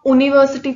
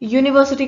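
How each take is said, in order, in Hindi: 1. शब्द सादी स्वर ध्वनि से शुरू होता है। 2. शब्द 'y' ध्वनि से शुरू होता है। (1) "तो नहीं बोलते ना" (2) "साउंड किसकी है, वाई की है"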